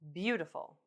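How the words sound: The pitch falls at the end. "falling intonations"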